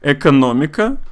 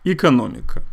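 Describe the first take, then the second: First: The first vowel is said fully and clearly. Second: The first vowel is weakened and barely noticeable.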